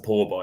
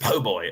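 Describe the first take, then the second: First: The first word is said as 'poor'. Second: The first word is said as 'po'. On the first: The speaker calls it wrong. "I'm pretty sure it's a poor boy" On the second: The speaker calls it right. "It's a po' boy"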